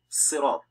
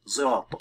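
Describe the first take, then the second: First: It begins with a light, plain s sound. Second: It begins with a sound close to z. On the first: "turning the Sad into Sin" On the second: "turn the Sad in this position to an almost Zay"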